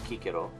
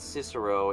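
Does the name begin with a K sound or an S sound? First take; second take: K sound; S sound. First: The name begins with a hard K sound. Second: The name begins with a soft S sound. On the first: The speaker calls it right. "It was Cicero" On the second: The speaker calls it wrong. "it wasn't Cicero"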